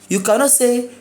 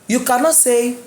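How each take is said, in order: The two takes are said the same way.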